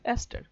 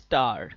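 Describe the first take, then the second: First: The word starts with a vowel before the s. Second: The word starts directly with an s sound. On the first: The speaker calls it right. "This is অ্যাস্টার" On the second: The speaker calls it wrong. "অনেকে আবার পশ ভাবে বলতে গিয়ে বলে স্টার"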